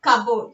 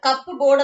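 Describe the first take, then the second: First: "Cupboard" as CUB-erd, one word; silent P. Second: "കപ്പ് ബോർഡ്" split as CUP-board; wrongly sounded P. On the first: Teacher answering what we say instead, silent P in "Cupboard". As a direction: run "Cupboard" together without the P. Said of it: "Here P". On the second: Teacher repeating what not to say, P voiced in "കപ്പ് ബോർഡ്". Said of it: "എന്നല്ല പറയുന്നത്". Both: Shown as a demonstration.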